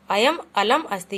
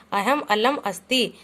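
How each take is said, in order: First: अयम said with a y sound, ayam, stressed and falling; अयम clearly with a y, the correction; corrected reading. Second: अहम said with a breathy h in the middle, aham; first word read as अहम, not अयम; अहम with an h sound, then corrected; misread first word. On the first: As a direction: fix the first word to अयम. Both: Shown as a demonstration.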